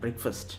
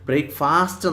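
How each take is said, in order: First: The second syllable is said like 'fust'. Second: The second syllable is said like 'fast'. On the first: The speaker calls it right. "ബ്രേക്ക് ഫസ്റ്റ് F I R S T എന്നുള്ളതാണ് pronunciation" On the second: The speaker calls it wrong. "ബ്രേക്ക്ഫാസ്റ്റ് എന്നാണോ? അല്ല"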